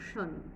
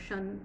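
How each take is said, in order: First: The ending has a short 'uh' vowel. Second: The ending has an open 'a' vowel. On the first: The speaker calls it right. "it's a shun" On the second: The speaker calls it wrong. "it's not a shun, the S H A N"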